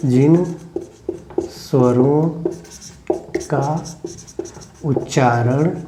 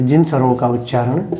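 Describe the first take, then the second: First: Slow, each word set apart; dictation. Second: Said in the usual way. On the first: Shown as a demonstration. Teacher dictating to pupils who write, word by word.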